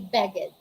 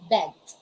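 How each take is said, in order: First: The ending is a separate extra syllable. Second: The ending joins the word without extra syllable. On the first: The speaker calls it wrong. "we don't say beg it" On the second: The speaker calls it right. "we don't pronounce letter E. We just say"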